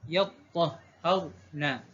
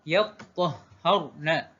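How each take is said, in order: First: The consonants are doubled, with open a-vowels. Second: The consonants are doubled, with open a-vowels.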